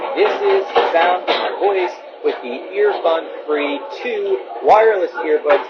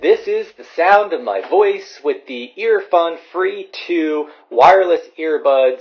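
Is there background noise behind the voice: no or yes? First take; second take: yes; no. First: The voice is heard over background noise. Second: The voice is heard without background noise.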